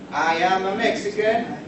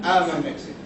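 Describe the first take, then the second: First: 'I am' is said as two full words. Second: 'I am' is contracted into one syllable.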